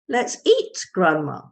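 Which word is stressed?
eat. The stress falls on the word eat. Grandmother is being told dinner is ready. "The stress is on eat"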